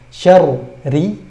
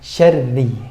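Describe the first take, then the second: First: The r is split, thick then thin. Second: The r is merged into one thin sound. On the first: The speaker calls it wrong. "tidak dibaca syarri" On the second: The speaker calls it right. "digabung menjadi syarri, langsung tipis"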